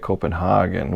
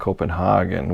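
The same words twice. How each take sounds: First: It is said with a European pronunciation. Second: It is said with a European pronunciation.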